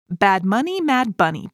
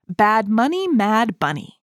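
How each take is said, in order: First: It is said fast. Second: It is said at a normal pace.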